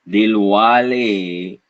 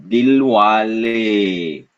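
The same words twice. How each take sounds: Both takes have the same delivery.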